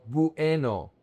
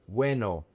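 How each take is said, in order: First: "bueno" broken into bu-E-no; split diphthong. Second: "bueno" as BWE-no, vowels glided together; joined diphthong. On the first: Teacher shows learners what not to say, "bueno" in three syllables. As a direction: pull U and E apart in "bueno". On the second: Teacher corrects the split version, "bueno" in two syllables. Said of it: "The diphthong is pronounced together". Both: Shown as a demonstration.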